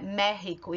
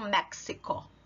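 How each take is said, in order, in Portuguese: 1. O x é um som de h gutural. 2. O x não é um som de h gutural. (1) "a pronúncia mais comum é México" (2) "e não México"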